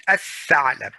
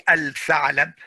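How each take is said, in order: First: Al-tha'lab said as ath-tha'lab, l merged into doubled th; al-tha'lab with the l assimilated; correct ath-tha'lab. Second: Al-tha'lab with the l sounded before th; al-tha'lab with a clear l; wrong al-tha'lab. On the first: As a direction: drop the l in al-tha'lab. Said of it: "you say". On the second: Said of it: "you don't say". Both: Shown as a demonstration.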